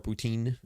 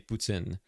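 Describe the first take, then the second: First: The t is a plain t sound. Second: The t sounds like ts. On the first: This is how English speakers say it. "as the, the Anglos say" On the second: This is how French speakers say it. "It's like it's like a T S sound, like tin"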